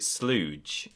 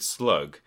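First: The word ends with a j sound. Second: The word ends with a hard g sound. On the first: "but pronounced it slooge" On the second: "referring to the word slug"

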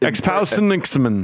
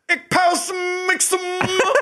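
First: It is said in the speaker's natural voice. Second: It is said in a put-on imitation voice.

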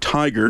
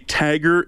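First: The first vowel sounds like 'eye'. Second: The first vowel sounds like 'ah'. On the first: The speaker calls it right. "instead of tiger" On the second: The speaker calls it wrong. "I say tagger instead of tiger"

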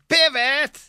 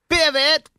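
First: It is said in a normal voice. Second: It is said nasally, nose plugged.

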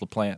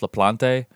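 First: The name is given a plainer, everyday pronunciation. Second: The name is given a fancier, more foreign pronunciation. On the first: This is how people commonly say the name. "every pronunciation I heard was LaPlante" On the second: This is the name's original form. "It probably started out as LaPlante"

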